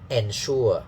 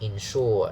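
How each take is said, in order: First: The first syllable begins with an 'e' vowel. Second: The first syllable begins with an 'i' vowel. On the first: The speaker calls it wrong. "a lot of Hong Kong people use n" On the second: The speaker calls it right. "It's encourage, ensure"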